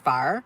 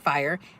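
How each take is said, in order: First: The word has a Texan pronunciation. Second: The word has a standard pronunciation. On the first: The speaker calls it wrong. "I would say fire" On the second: The speaker calls it right. "I couldn't say fire"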